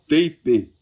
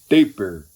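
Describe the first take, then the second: First: The word ends without an R sound. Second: The word ends with an R sound. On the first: The speaker calls it wrong. "Tem cuteleiro que fala distal tape" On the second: The speaker calls it right. "é com R no fim"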